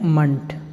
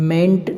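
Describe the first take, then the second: First: The vowel is a short, weak 'uh' sound. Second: The vowel is a full 'e' as in 'men'. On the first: The speaker calls it right. "आपको पढ़ना है मंट" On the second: The speaker calls it wrong. "आपको मेंट नहीं पढ़ना है"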